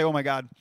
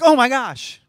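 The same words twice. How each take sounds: First: Said in the usual way. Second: Oh my gosh thrown high and loud in fake surprise; mock shock. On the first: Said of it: "He doesn't say". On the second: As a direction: overdo the astonishment on Oh my gosh. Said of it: "It's not like he's like".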